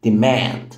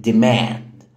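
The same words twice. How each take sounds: The two takes are said the same way.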